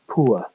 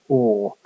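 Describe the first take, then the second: First: The vowel glides from a high back sound to schwa. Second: The vowel is a single steady sound. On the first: This is an older pronunciation going out of use. "begins at the uh, a fairly high back position, uh, u, and ending with the schwa" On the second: This is how most speakers say it today. "most English speakers will pronounce this word as or"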